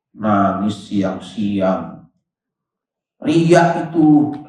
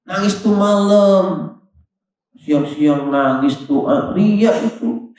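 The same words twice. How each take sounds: First: Low, slow, mock-suspicious muttering; inner judging thought. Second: Higher, slow, mock-scornful musing; inner sneering thought. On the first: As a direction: drag out the accusation under the breath. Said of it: "kata dia tuh". (suara hati yang menuduh, pelan dan rendah) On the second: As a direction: toss out the judgement like a smug aside. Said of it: "Itu di hatinya dia ngomong gitu". (cibiran dalam hati, pelan dan mengejek)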